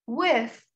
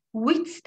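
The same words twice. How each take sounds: First: With said with a lisped th, tongue between the teeth; With with a proper th sound; correct th. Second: With said as "wit", a hard t instead of th; the wrong way, With ending in a plain t; With mispronounced with a t at the end; wrong t sound. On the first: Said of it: "o peltek çıkacak". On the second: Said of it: "With değildir". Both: Shown as a demonstration.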